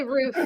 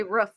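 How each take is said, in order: First: Roof with a long oo; Philly roof. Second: Roof with a short oo, as in book; other roof. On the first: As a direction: say roof with the vowel of food. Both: Shown as a demonstration. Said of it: "you say roof weird".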